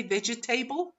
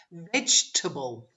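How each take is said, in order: First: 'vegetable' as ve-ge-TAY-bul, rhyming with table; students' mispronunciation. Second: 'Vegetable' as VEJ-tuh-bul, middle vowel dropped; reduced syllables. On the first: Retold or imitated. Teacher mimicking what students say, table-ending mispronunciation. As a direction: say 'vegetable' with every syllable, ending in 'table'. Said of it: "Have you heard your students say".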